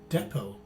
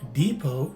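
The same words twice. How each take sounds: First: The first vowel is a short E sound. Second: The first vowel is a long E sound. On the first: "it's a short E in the second variation" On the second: "In the first variation, the letter E is a long E"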